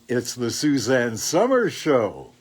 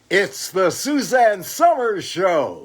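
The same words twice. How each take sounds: First: It is said flatly with little energy. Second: It is said lively with lots of energy. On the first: The speaker calls it wrong. "there could have been a little more enthusiasm in your voice" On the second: The speaker calls it right. "here comes the real announcement"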